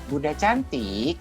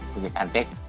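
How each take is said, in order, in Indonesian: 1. Frasanya diucapkan dengan intonasi hidup dan melodis. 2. Frasanya diucapkan dengan intonasi datar dan lemah. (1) "yang bagus ah, coba tirukan Bunda" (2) "intonasinya kurang boleh diminta diulang loh"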